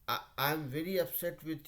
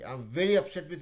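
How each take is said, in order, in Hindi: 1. यह धीमी आवाज़ में, मुरझाए और सपाट लहज़े में बोला गया है। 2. यह ज़ोर से, लगभग चिल्लाकर, दम के साथ बोला गया है। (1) "ऐसे बोलेंगे एकदम पूरा मुरझा करके" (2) "चिल्ला के बोलता है"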